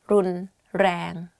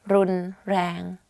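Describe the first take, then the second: No difference in how they are said.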